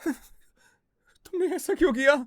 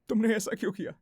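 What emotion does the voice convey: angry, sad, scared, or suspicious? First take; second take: scared; sad. First: The line is said in a scared tone. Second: The line is said in a sad tone. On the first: "scared" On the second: "sad"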